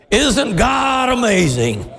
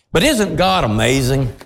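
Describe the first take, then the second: First: Slow, higher, shouted "Isn't God amazing?"; preacher's shout. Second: Said in the usual way. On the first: Acted. Repeated as shout.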